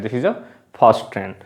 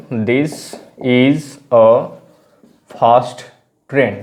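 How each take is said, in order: First: Said in the usual way. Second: Slow dictation with long gaps between words. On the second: Shown as a demonstration. Teacher giving learners an example sentence, slow word by word. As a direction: pause after each word as if writing it out.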